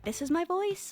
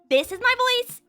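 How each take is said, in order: First: It is spoken at a lower pitch. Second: It is spoken at a normal pitch.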